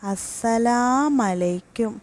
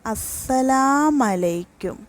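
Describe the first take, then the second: First: The final u of salamu is dropped. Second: The same.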